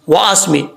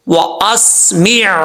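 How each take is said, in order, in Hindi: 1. शब्द गले के व्यंजन के बिना, स्वर पर खत्म होता है। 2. शब्द के आख़िर में गले का व्यंजन साफ़ सुनाई देता है। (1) "मीम के बाद जो आइन है उसको छोड़ देते हैं" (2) "ये आइन की आवाज आ रही है"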